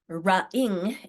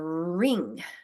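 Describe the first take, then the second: First: A vowel is added right after the r. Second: The r goes straight into the rest. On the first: The speaker calls it wrong. "it's not a ra-ing" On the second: The speaker calls it right. "it's a ring"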